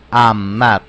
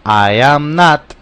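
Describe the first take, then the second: First: "I'm not" lower, quicker contraction; short form. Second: "I am not" slow and loud, each word separate; full form. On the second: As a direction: spell out "I am not" slowly. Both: Shown as a demonstration. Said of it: "Vamos de nuevo".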